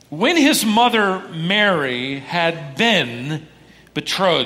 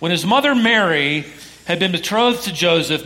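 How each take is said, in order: First: It is read more slowly. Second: It is read at a normal pace.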